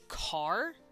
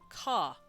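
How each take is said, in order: First: The final R is strongly pronounced. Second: The final R is dropped entirely. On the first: "we say something like car" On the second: "they will pronounce it ka"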